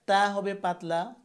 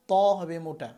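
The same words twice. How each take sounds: First: তা with a light t and open "aa"; thin t. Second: ত with a full, heavy "to"; thick t. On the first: Teacher contrasting letters of one origin, thin t. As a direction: keep তা thin, tongue forward. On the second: Teacher contrasting letters of one origin, thick t. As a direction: make ত thick with a rounded vowel. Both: Shown as a demonstration.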